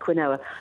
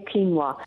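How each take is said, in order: First: The O is said as a full vowel. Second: The O is said like a W sound. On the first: "a lot of people do say quinoa" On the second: "The O is like, you treat it like a W"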